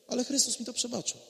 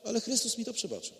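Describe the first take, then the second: First: Quiet, steady repeat with stress on Chrystus; calm answer. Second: Soft, quiet and calm; calm answer. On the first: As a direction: calmly insist on Chrystus. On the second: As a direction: answer peacefully, softly. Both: Pretend. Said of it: "będziesz mogła spokojnie odpowiadać".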